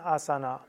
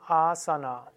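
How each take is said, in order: First: The first a is short, final a kept. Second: The first a is long, final a kept. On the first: The speaker calls it wrong. "die meisten Inder sagen nicht Asana, sagen Asana" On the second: The speaker calls it right. "korrekt wäre es Asana"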